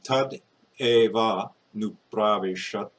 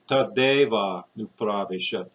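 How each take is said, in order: First: The first two words are said separately. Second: The final consonant joins onto the next word. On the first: The speaker calls it wrong. "instead of saying" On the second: The speaker calls it right. "you say tadeva nu pravishat. You take this consonant and put it here"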